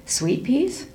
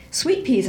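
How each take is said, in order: First: "Sweet peas?" asked with a rising tune, mildly surprised; mother echoing her son's words, unsure; puzzled question. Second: "Sweet peas," said again as a falling statement, stress on "Sweet"; insisting. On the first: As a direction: echo it back as a doubtful question. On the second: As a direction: repeat it firmly as if it were true. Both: Acted. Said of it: "I said again".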